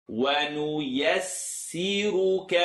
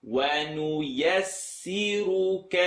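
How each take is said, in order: No difference in how they are said.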